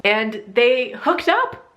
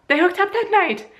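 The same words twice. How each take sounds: First: "hooked up" slowed and drawn out, rising; dramatic reveal. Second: "that night" squealed much higher, falling; shocked squeal. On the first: Telling viewers her sister hooked up with him, slow reveal. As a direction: let "and they hooked up" hang, slowly. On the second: Repeating to viewers the sister's betrayal, high shocked squeal. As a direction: shriek "They hooked up that night" in disbelief. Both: Pretend.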